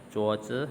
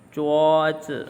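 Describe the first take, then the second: First: Said in the usual way. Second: Zhuozi called out loud and high; Mandarin model word. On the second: Shown as a demonstration. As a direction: announce Zhuozi clearly for students to copy.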